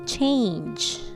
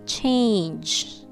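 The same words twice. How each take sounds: The two takes are said the same way.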